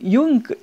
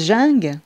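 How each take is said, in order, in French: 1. Il ne se prononce pas comme il s'écrit en français. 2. Il se prononce comme il s'écrit en français. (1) "comme il y en a qui diraient" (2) "moi je le prononce comme c'est écrit"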